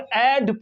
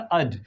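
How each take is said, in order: First: The vowel is a full, open vowel. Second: The vowel is a very short schwa. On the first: The speaker calls it wrong. "इसको एड पढ़ देते हैं, ये mistake है" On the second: The speaker calls it right. "इसको श्वा हो जाएगा, इसका साउंड आ निकलेगा और वेरी शॉर्ट"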